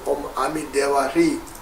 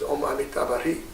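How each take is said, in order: First: The mantra is said with Tibetan pronunciation. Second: The mantra is said with Sanskrit pronunciation. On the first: "in Tibetan pronunciation we say" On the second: "Sanskrit pronunciation is"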